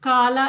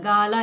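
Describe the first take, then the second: First: It begins with a hard k sound. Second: It begins with a soft g sound. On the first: It is the form used when the word stands alone. "സാധാരണ കാലം എന്ന് കാല എന്ന് തന്നെയാണ് പറയാറുള്ളത്" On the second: It is the form used inside a compound word. "ഇവിടെ നമ്മൾ stress ചെയ്യുന്നില്ല, ഗാല എന്നാണ് പറയുന്നത്"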